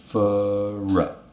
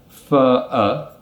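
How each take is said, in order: First: An r sound links the two words. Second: The two words join without an r sound. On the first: "we're going to add a r sound in between" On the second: "instead of saying for a"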